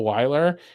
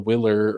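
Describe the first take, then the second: First: The first vowel sounds like 'why'. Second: The first vowel sounds like 'will'. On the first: The speaker calls it right. "my mine is the Weiler" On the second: The speaker calls it wrong. "so many people mispronounce it as the Willer"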